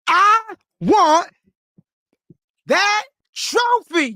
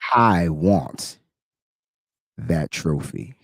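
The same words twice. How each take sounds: First: It is said loudly, with strong conviction. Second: It is said flatly, without conviction.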